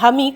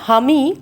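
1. শব্দটি শুরু হয় একটি সাধারণ স্বরধ্বনি দিয়ে। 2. শব্দটি শুরু হয় একটি অতিরিক্ত h ধ্বনি দিয়ে। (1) "হামি মানে আমি" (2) "তিনি যেহেতু হিন্দু বিহারি ছিলেন এবং তার নাম ছিল রাখতুরাম, তো তিনি এরকমভাবে কথা বলতেন"

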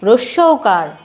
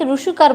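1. শব্দটি প্রতিটি ধ্বনি সহ বলা হয়। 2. শব্দটি কম ধ্বনিতে ছোট করে বলা হয়। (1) "উচ্চারণ হবে রস্যৌকার" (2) "অনেকে রসুকার বলো, রসুকার হবে না"

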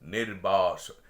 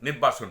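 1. শব্দটি ধীরে ও টেনে টেনে বলা হয়েছে। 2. শব্দটি দ্রুত ও ছোট করে বলা হয়েছে। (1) "এইভাবে এতটা সময় দিয়ে উচ্চারণ করতে হবে শব্দটা" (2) "নির্বাসন নয়"

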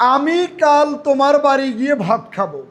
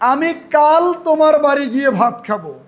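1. জোর দেওয়া হয়েছে 'আমি' শব্দের উপরে। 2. জোর দেওয়া হয়েছে 'কাল' শব্দের উপরে। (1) "আমি এখানে আমিটার উপরে জোর দিয়েছি।" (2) "আমি কিন্তু কাল শব্দের উপরে জোর দিয়েছি।"

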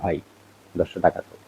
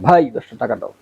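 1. এটি স্বাভাবিক, শান্ত আওয়াজে বলা হয়েছে। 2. এটি জোরে, উঁচু গলায় বলা হয়েছে।

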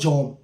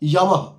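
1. এটি ছোট করে, একটি দলে 'jom' হিসেবে বলা হয়। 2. এটি লম্বা করে, খোলা স্বরে 'ya-mah' হিসেবে বলা হয়। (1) "বাংলায় যম বলছি" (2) "উচ্চারণটা হচ্ছে ইয়ামাহ"

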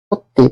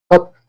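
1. শব্দটি যুক্ত 'i' স্বরধ্বনি দিয়ে শেষ হয়েছে। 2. শব্দটি কোনো যুক্ত স্বরধ্বনি ছাড়া শেষ হয়েছে। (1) "আমরা বলি সত্যি" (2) "আমরা এই সত্যটাকে সত্য না বলে"

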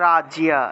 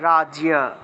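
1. ব্যঞ্জনের পরে স্পষ্ট 'ya' ধ্বনি আসে। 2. ব্যঞ্জনের পরে স্পষ্ট 'ya' ধ্বনি আসে।

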